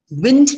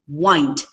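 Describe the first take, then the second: First: "Wind" with a short i, as in breeze. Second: "wind" with a long i, as in winding a toy. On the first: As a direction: say "Wind" to rhyme with pinned. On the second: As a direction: say "wind" to rhyme with kind. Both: Shown as a demonstration. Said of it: "same spellings but sound different".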